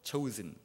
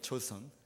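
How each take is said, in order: First: The second syllable sounds like 'zen'. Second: The second syllable sounds like 'sun'. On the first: "발음을 잘하면 chosen 이래요" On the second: "영어로 하면 초선이에요"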